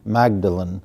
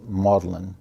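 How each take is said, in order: First: It is said the American way, as spelled. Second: It is said the British way, not as spelled. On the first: "A lot of times when Americans read the name, they see Magdalen" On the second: "the British pronounce it Magdalen"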